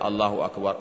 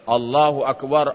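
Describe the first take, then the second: First: It is said softly, at low volume. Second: It is said loudly, at high volume. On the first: It could not be heard from outside the mosque. "seperti yang saya baca Allahu Akbar, Allahu Akbar, tak mungkin juga dengar" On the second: It could be heard from outside the mosque. "Pasti suara mengucapkannya Allahu Akbar, Allahu Akbar, barulah didengar bapak di luar"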